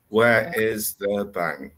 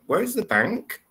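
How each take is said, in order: First: The voice stays flat or falls at the end. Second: The voice rises slightly at the end. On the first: The speaker calls it wrong. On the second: The speaker calls it right. "it's only a slight intonation there, but it's it's still there"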